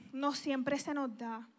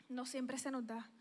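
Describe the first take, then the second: First: Said in the usual way. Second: Softer rueful repeat. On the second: Shown as a demonstration.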